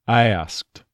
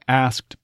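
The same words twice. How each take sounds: First: The vowel glides off into a schwa. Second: The vowel stays steady with no glide.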